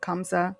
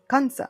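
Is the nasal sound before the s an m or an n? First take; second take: m; n. First: The nasal before the s sounds like m. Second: The nasal before the s sounds like n. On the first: "you hear kam" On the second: "if you watch anything Hindi related, they'll say Kans"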